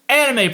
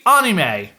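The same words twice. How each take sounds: First: It is said with a Western pronunciation. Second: It is said with the original, non-Western pronunciation. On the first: The speaker calls it wrong. "we consistently say wrong" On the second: The speaker calls it right. "really want to be pedantic about it, it should be anime"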